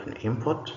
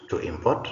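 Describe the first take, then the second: First: An IMport, noun stress; stress on first syllable. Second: To imPORT, verb stress; stress on second syllable. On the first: Teacher reads the bold noun, first-syllable stress on "import". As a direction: hit "im" in "an import". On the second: Teacher reads the bold verb, second-syllable stress on "import". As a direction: hit "port" in "to import". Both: Shown as a demonstration. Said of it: "emphasis is going to be on the words".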